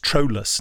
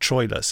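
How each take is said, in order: First: The name is said in its original pronunciation. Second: The name is said in its familiar pronunciation. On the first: The speaker calls it right. "apparently the correct pronunciation, which is Troilus" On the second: The speaker calls it wrong. "not Troilus"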